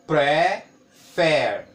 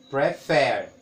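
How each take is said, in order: First: "prefer" split into two beats with a long gap; syllable by syllable. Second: "prefer" in two quicker beats, short gap; two syllables, closer together. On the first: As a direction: count out "prefer" slowly, one vowel beat at a time. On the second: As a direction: repeat "prefer" more joined up, both syllables still distinct. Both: Shown as a demonstration. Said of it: "Eu vou contar pelas vogais".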